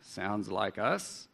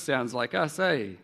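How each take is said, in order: First: Slow, lightly voiced Gore local; a hint of a Gore accent, drawn out. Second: Lightly voiced East Coast local, rising "eh?"; a hint of an East Coast accent. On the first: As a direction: say it slowly like someone from Gore. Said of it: "they'd go to Gore". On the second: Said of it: "They'd go to the East Coast".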